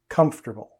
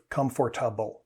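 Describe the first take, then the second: First: The word is said with three syllables. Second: The word is said with four syllables. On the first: The speaker calls it right. "Native speakers pronounce this comfortable" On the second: The speaker calls it wrong. "instead of comfortable, like learners sometimes do"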